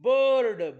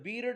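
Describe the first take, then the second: First: The vowel is said as an 'er' sound. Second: The vowel is said as a short 'ih'. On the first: The speaker calls it right. "आयचा उच्चार अ होतो" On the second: The speaker calls it wrong. "बिर्ड नाही"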